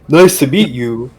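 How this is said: It is said in a put-on character voice. The speaker calls it right.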